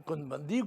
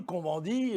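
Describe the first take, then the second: First: Said in the usual way. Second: "Cohn-Bendit" said the French way, with nasal vowels; French pronunciation. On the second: Shown as a demonstration. Speaker insisting that in France one says it French, "Cohn-Bendit" with French nasal vowels. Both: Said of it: "on le prononce à la française".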